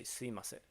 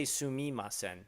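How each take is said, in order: First: Sumimasen said as simasen, the u swallowed; right sumimasen. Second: Sumimasen with every syllable spelled out; over-pronounce sumimasen; careful sumimasen. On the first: Streamer coaching chat: sumimasen said simasen, u dropped. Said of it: "Just say sumimasen". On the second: Streamer mocking chat's sumimasen: spelled out in full. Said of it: "don't say sumimasen". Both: Shown as a demonstration.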